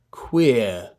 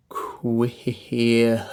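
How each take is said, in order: First: Said in the usual way. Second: "Queer" drawn out in breath pulses; stretched "Queer" broken by little h puffs; pulsed diphthong. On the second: Shown as a demonstration. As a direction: bounce through both vowels of "Queer". Pulsed take, then joined take.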